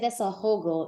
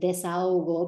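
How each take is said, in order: First: The h is pronounced between the vowels. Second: The h is silent, vowels run together. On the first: The speaker calls it wrong. "no one's going to know what you're saying" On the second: The speaker calls it right. "delete it from your mind and go A O"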